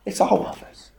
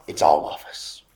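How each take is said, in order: First: "It's all of us" said aloud and higher, with weight on "all"; voiced emphasis. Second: Whispered. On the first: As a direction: lift "It's all of us" back up, pressing "all". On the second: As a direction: drop "It's all of us" to a hush. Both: Shown as a demonstration.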